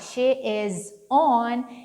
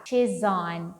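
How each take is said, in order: First: She and is are said as separate words. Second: She and is are joined into one syllable. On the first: "ao invés de falar she is on" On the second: "eles costumam falar she's on"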